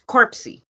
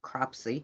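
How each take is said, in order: First: The word begins with the sound 'cor'. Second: The word begins with the sound 'cro'. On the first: The speaker calls it wrong. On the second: The speaker calls it right.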